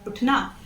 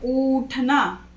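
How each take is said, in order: First: The first vowel is short and light. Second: The first vowel is long and stressed. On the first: The speaker calls it right. "बहुत ही हल्के से pronounce करेंगे" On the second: The speaker calls it wrong. "वो बड़ी यू की मात्रा होगी और वो गलत हो जाएगा"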